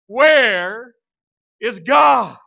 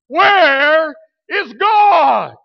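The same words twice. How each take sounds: First: It is said in a booming voice. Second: It is said even louder, near shouting.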